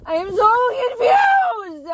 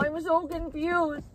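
First: Very high, loud, drawn-out wail; confused crying shout. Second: High, slow tearful whine; confused whimper. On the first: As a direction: bawl out your confusion slowly. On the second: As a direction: whimper your confusion, drawn out. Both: Real, not acted.

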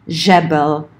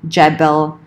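First: "jebel" starting with zh as in "measure"; "jebel" said ZHEH-bel; soft zh jebel. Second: "jebel" starting with j as in "jet"; "jebel" said JEH-bel, like "jet"; j-sound jebel. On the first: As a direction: soften the j of "jebel" to a French-style zh. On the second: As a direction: begin "jebel" with a hard English j. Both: Shown as a demonstration. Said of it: "depending on the dialect".

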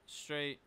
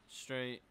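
The two takes are said the same way.

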